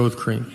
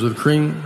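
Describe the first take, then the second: First: CREAM low, a resigned-sounding answer; deadpan confirmation. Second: CREAM turned into a question; double-check, querying the word CREAM; questioning repeat. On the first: Customer confirming the same order once more, deadpan confirmation. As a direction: answer lower, putting CREAM down firmly. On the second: Barista still checking the customer's order, questioning repeat. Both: Retold or imitated.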